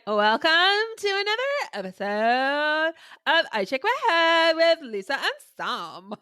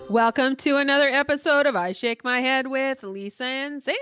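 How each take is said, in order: First: It is said in a put-on Valley Girl voice. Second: It is said in the speaker's normal voice.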